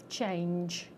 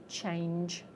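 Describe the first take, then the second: No difference in how they are said.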